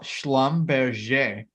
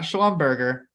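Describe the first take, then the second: First: "Schlumberger" as shlum-behr-ZHAY, drawn out; French-style pronunciation. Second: "Schlumberger" as SHLUM-bur-gur, hard g; wrong, anglicized pronunciation. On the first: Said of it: "I know how to pronounce this company's name correctly". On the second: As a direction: say "Schlumberger" English-style, rhyming with hamburger. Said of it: "not Schlumberger". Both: Shown as a demonstration.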